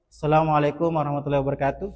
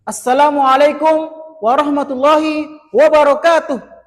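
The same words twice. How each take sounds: First: The greeting is said weakly, with low energy. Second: The greeting is said brightly, with high energy. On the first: The speaker's confidence starts low. The speaker calls it wrong. "udah loyo kayak" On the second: The speaker's confidence is built up from the start. The speaker calls it right. "langsung semangat"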